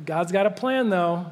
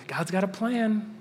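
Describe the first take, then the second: First: Lightly voiced breezy comforter saying "God's got a plan"; a hint of a glib friend brushing off grief; mock cheery platitude. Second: "God's got a plan" said slowly and dryly, no cheer; slow ironic repeat of the cliché; slow deadpan. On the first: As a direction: toss off "God's got a plan, though" like an easy answer. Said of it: "be like". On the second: Shown as a demonstration. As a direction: let "God's got a plan" land flat and heavy after the losses.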